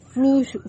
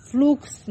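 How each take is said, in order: First: "fluxo" said with a sh sound for the x. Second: "fluxo" said with a ks sound for the x. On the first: Teacher reading out an F L example word, "fluxo" with sh. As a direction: say "fluxo" with x like sh, as "flusho". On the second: Teacher correcting the example word for the class, "fluxo" with ks. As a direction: say "fluxo" with x like ks, as "flukso". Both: Shown as a demonstration. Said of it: "né?".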